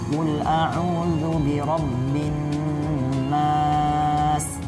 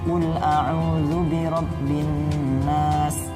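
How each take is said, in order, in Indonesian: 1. Vokal akhir pada nas ditahan panjang. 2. Vokal akhir pada nas dipotong pendek.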